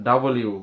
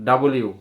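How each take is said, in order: The two takes are said the same way.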